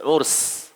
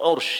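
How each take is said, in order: First: The word ends with an s sound. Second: The word ends with an sh sound. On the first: The speaker calls it right. "Tapi urs ... U R S saja. Tidak ada Y-nya" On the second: The speaker calls it wrong. "U R S Y ... Salah"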